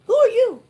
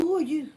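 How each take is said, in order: First: Sharp, higher, louder challenge; indignant challenge. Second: Said in the usual way. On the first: Real, not acted. Challenging meddlers who say leave your husband, indignant. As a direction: demand it with outrage.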